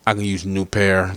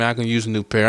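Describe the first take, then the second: First: Politely rephrased request; polite correction. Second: Offhand ask for headphones; casual demand. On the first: Correcting himself to a rapper, with mock politeness. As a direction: ask again, humbly and nicely. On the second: Asking a rapper for new headphones, offhand and blunt. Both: Shown as a demonstration. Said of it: "I ain't mean to say it like that".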